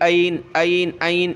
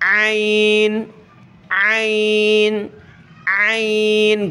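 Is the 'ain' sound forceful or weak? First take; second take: weak; forceful. First: The sound is weak and not from the throat. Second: The sound is forced strongly from the throat. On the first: The speaker calls it wrong. "पहले आप तो निकाल रहे होंगे लेकिन इस तरह निकल रहा होगा" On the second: The speaker calls it right. "जितना ज़ोर लगा सकें उतने ज़ोर से आपने निकालना है"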